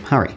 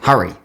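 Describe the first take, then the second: First: "hurry" in a posher Australian accent, as in Perth; posh Aussie pronunciation. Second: "hurry" as Queenslanders say it; Queensland pronunciation. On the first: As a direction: say "hurry" short, well-spoken Perth style. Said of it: "make it a bit more posh". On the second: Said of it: "in Queensland people pronounce it like". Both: Shown as a demonstration.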